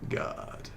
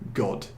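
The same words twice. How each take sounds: First: It is said in an American accent. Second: It is said in a British accent. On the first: "Whereas in America they would say God" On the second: "It's got a harder D sound"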